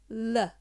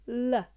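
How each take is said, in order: First: The L sound is followed by a vowel. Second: The same.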